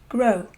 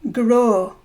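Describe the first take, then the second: First: The O vowel is not drawn out. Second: The O vowel is drawn out long. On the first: "instead of grow" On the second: "the letter O is often lengthened. So we would say grow"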